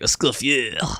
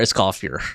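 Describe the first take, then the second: First: The name is said with French-style pronunciation. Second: The name is said with English-style pronunciation. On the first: "instead of like Escoffier" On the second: "they're just gonna call her Escoffier"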